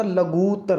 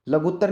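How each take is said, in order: First: लघुत्तर with long drawn "ghoo"; slow लघुत्तर, stretching the u; correct long vowel. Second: लघुत्तर with short u in "ghu"; wrong pronunciation. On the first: Teacher corrects the vowel for students, careful pronunciation. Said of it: "लघु में बड़ा उ". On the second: Teacher shows students the wrong vowel, mispronounced. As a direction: say लघुत्तर with a quick "ghut". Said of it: "लघुत्तर नहीं होता". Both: Shown as a demonstration.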